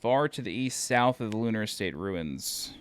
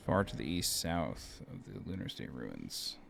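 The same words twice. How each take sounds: First: Said in the usual way. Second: Much lower, slow, deep read. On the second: Acted. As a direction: drop the voice deep and intone it. Repeats the same text, much deeper.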